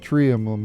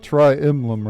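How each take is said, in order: First: The first syllable sounds like 'tree'. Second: The first syllable sounds like 'try'. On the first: The speaker calls it right. "It's actually tree emblem" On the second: The speaker calls it wrong. "because I say tri emblem"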